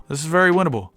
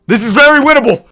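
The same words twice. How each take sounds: First: Slightly raised, unshouted voice; hopeful. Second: High, loud insistence; excited shout. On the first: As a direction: convince yourself there is a chance. Hopeful take before the shouted one. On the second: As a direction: shout it with all your hope. Repeats it shouted, awaiting result. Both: Real, not acted.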